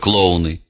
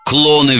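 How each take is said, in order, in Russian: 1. Слово произнесено со всеми тремя слогами. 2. Слово произнесено сжато, в два слога. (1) "вместо «клоуны»" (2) "«Клоны» вместо «клоуны»"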